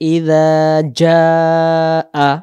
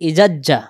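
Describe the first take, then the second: First: A soft z sound, with the long vowel held. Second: A hard j sound, with the vowel cut short. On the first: The speaker calls it right. "এটা জিহ্বার আগা থেকে নরম করে" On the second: The speaker calls it wrong. "তাহলে এখানে ভালো করে আদায় হলো না"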